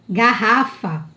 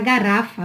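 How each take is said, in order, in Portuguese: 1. O R do meio é forte, firme. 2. O R do meio é fraco, suave. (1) "Não é garrafa" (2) "se colocasse só um R, ia ficar garrafa"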